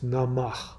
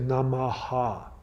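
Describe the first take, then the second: First: The word ends without a final 'ha' syllable. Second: The word ends with an extra 'ha' syllable. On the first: The speaker calls it right. "the Ha is silent" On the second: The speaker calls it wrong. "You don't say Namaha"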